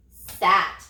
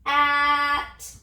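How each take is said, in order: First: Said in the usual way. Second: "At" as separate drawn-out sounds after a hissed s; sounded out. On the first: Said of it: "What's the word?". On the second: Shown as a demonstration. Teacher has children touch and say the new word, "At" sounded out slowly. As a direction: stretch "At" sound by sound, starting from a lone s. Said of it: "Touch and say".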